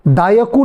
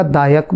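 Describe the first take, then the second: First: दायकु with a short u at the end; wrong form. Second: दायक ending on the k, no u; correct form. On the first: Teacher shows the wrong chant reading, mock mistaken pronunciation. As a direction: add a short u after दायकु. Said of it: "दायकु नहीं बोला जाएगा". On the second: Teacher shows the correct chant reading, clear pronunciation. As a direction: close दायक on the k. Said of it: "दायक बोला जाएगा". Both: Shown as a demonstration.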